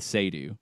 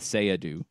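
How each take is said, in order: First: The name is said with two syllables. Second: The name is said with three syllables. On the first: This is how an official listing gave it. The speaker calls it wrong. "which is how U C L A had it listed" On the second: This is how the person says it himself. The speaker calls it right. "it sounds far more like a Sayadu"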